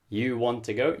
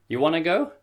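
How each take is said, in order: First: 'Want to' is said in full. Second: 'Want to' is reduced to 'wanna'.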